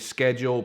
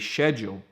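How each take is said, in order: First: It is said the American way, with a hard C. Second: It is said the British way, without a hard C. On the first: "You would say schedule, pronouncing the C" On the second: "here in the U K, ... people would say schedule"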